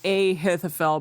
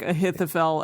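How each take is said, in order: First: The name is broken into separate parts. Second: The name is said smoothly as one word. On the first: The speaker calls it wrong. "Not like a Ahithophel" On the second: The speaker calls it right. "like Ahithophel as one word"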